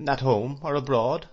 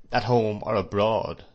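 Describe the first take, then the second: First: Puzzled question, "at home or abroad" rising at the end; "at home or abroad" echoed higher, wondering. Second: Pointed statement, "at home or abroad" with a falling end; "at home or abroad" stressed as a statement; emphasized words. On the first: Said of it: "apparently wondering why". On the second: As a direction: lean on "home" and "abroad", closing firmly. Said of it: "he emphasized those words so much". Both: A narrator's reading.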